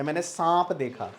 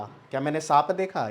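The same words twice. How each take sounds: First: सांप nasalized within the sentence; stretched nasal vowel in सांप. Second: Said in the usual way. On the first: Shown as a demonstration. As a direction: push the आ of सांप into the nose. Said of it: "क्या नाक पे आवाज़ जा रही है". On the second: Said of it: "अगर मैं इसको सिंपल लिख दूँ".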